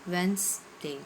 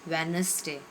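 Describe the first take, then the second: First: The middle d sound is left silent. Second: The middle d sound is pronounced clearly. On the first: The speaker calls it right. "It's सही pronunciation है वेंसडे" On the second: The speaker calls it wrong. "नहीं, इसको simple बोला जाता है"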